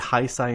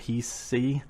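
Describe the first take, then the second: First: The 'ei' vowel sounds like 'eye'. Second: The 'ei' vowel does not sound like 'eye'. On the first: "the reason why I say Heisei ... E I is always I" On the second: "instead of Heisei"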